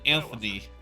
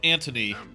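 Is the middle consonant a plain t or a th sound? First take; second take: th; t. First: The middle consonant is a th sound. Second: The middle consonant is a plain t sound. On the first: The speaker calls it wrong. "rather than" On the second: The speaker calls it right. "dropped the H and just gone with"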